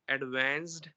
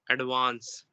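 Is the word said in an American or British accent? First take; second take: American; British. First: It is said with an American accent. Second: It is said with a British accent. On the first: "American would say" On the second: "Britishers would say"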